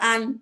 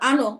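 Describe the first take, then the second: First: The final n stops cleanly with no vowel. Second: The final n is followed by an extra vowel. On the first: The speaker calls it right. "জজম হচ্ছে একবার উচ্চারণ হবে" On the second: The speaker calls it wrong. "এরকম কেউ কখনো বলবেন না"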